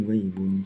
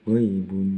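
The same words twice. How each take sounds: Both takes have the same delivery.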